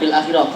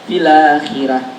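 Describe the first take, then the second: First: The l closes fil before a separate akhirah. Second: The l takes the hamza's vowel, sounding fila. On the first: The speaker calls it wrong. "Bukan fil akhirah" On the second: The speaker calls it right.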